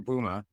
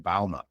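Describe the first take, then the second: First: The name is said the American way. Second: The name is said the Dutch way. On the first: "The Americans call me Booma" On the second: "if you go to my Dutch roots, they say Bauma"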